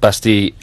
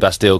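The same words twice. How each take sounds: First: The name is pronounced with French sounds. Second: The name is pronounced with English sounds. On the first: The speaker calls it right. "that's the correct pronunciation" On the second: The speaker calls it wrong. "we say Bastille because we're English"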